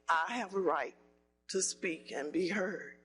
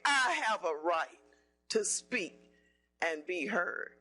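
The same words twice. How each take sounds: First: It is said at a plain, soft level. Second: It is said loudly with strong force.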